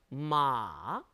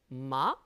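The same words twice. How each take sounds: First: The pitch comes down in a long stretch. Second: The pitch curls upward as it rises. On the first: "삼성은 쭉 길게 내려옵니다" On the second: "이성은 살게 감아쳐 올라가죠"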